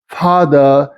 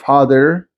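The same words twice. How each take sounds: First: The final R sound is silent. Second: The final R sound is pronounced.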